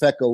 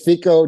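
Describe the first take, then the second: First: The first syllable has a short 'eh' vowel. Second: The first syllable has a long 'ee' vowel. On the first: This is the way the group says it now. The speaker calls it right. "it's easier to say feck off ... it's gecko" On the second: This is the older way the group said it. The speaker calls it wrong. "it was FICO, ... it's not geeko"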